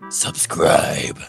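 It is said in a deep Batman voice.

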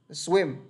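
Only swim is stressed; they is light. The speaker calls it right. "Chữ dây nhẹ lắm. Nên các bạn chỉ phải đọc nhấn vào swim"

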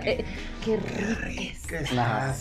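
It is said in a lustful, suggestive tone. Said during sex, it turns the listener on. "en el acto es diferente, así con esa morbosidad"

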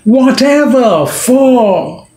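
The stress falls on 'ever' and 'for'. The father is shocked. "And suppose he stresses on both"

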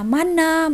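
The word ends with an 'a' vowel. "akhiran A"

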